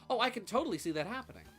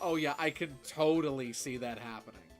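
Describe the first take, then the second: First: It sounds sincere and genuine. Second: It sounds sarcastic and backhanded.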